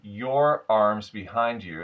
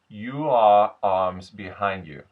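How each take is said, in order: First: 'Your' is said as one syllable. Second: 'Your' is said as two syllables, 'you are'. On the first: "instead of" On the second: "it becomes"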